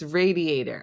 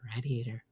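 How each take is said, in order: First: The first syllable sounds like 'ray'. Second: The first syllable sounds like 'rad'. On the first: This is how the speaker's kids say it. "my kids always say to me" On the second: This is how the speaker says it. "It's rad"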